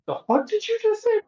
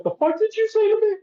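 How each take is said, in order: First: High-pitched imitation of an incredulous woman; mock shocked disbelief. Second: Very high, quick squeal of disbelief; mock incredulous outrage. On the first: Woman reacts to a man's crude come-on, high mock disbelief. Acting out her shocked reply. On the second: Woman challenges a man's second crude innuendo, fast high mock outrage. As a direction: rush it out in a high, put-on shocked voice. Acting out her second shocked reply.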